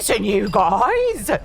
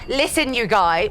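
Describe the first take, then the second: First: It is said in a put-on horse voice. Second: It is said in the speaker's normal voice.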